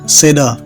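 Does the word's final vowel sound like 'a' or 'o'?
a. The final vowel sounds like an open a.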